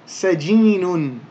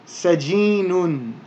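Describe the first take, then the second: No difference in how they are said.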